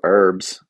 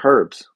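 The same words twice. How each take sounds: First: The word starts with a vowel sound, no H. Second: The word starts with an audible H sound. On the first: The speaker calls it wrong. "There's no herbs" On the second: The speaker calls it right. "There are herbs"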